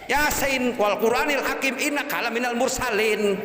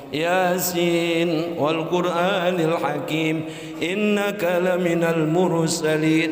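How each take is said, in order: First: It is recited choppily in a rough regional accent. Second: It is recited smoothly in a sweet, melodious voice. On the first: The reciter cannot read properly. The speaker calls it wrong. "ngaji ngambil logat, logat Tegal" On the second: The reciter reads properly and pleasantly. The speaker calls it right. "dengan suaranya enak yang merdu"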